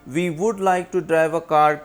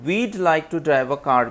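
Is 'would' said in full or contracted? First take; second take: full; contracted. First: The word would is said in full. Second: The word would is contracted onto we.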